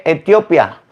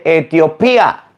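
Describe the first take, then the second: First: "Etiopía" said wrong as e-TIO-pia, no stress on the í; mispronounced Etiopía. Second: "Etiopía" drawn out slowly with stress on PÍ; corrected Etiopía. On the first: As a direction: say "Etiopía" with pia run into one syllable. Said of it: "no se lee Etiopía". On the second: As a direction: say "Etiopía" as e-tio-PÍ-a, slow and emphatic. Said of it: "se dice Etiopía". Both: Retold or imitated.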